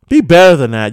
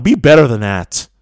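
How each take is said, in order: First: Be punched and louder, like an order; insistent Be with a firm fall; stress on Be. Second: Said in the usual way. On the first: Shown as a demonstration. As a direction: lean hard on Be as a command.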